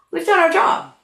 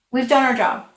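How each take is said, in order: First: Done lifted and stressed; we've DONE our job, with a higher voice. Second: Said in the usual way. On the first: Shown as a demonstration. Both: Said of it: "repeated for emphasis".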